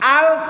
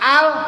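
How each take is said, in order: The two takes are said the same way.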